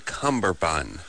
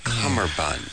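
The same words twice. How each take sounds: First: The word is said with a 'b' sound: cumberbund. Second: The word is said without a 'b' sound: cummerbund. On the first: The speaker calls it wrong. "you would say cummerbund" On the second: The speaker calls it right. "but it's cummerbund"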